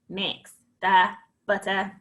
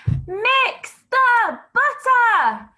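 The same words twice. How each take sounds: First: It is said in a flat, robotic voice. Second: It is said loudly, in a shout. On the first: "And robot it" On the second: "Shout it"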